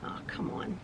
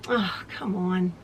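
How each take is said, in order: First: Breathy exasperated whisper; whispered oh come on. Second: Low voiced exasperated mutter; muttered frustration. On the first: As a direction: whisper it in frustration. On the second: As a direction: sigh it out under your breath. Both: Real, not acted. Thread tangles again.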